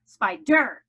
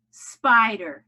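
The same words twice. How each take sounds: First: "Spider" as spy-DER, second syllable punched loud; deliberately misplace the accent in "Spider", onto -DER; wrong-syllable stress. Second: "Spider" as SPY-der, first syllable loud; stress on first syllable of Spider. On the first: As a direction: hit the end of "Spider" hard. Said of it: "Or do you say spider?". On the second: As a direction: punch the first half of "Spider". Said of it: "accent is on the first syllable". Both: Shown as a demonstration.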